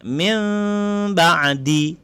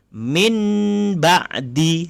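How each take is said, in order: First: An m with slightly parted lips comes before ba'di. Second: A plain n sound comes before ba'di. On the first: The speaker calls it right. "Ataupun bibir tak rapat" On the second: The speaker calls it wrong. "Kalau yang salah itu kita baca min ba'di, salah"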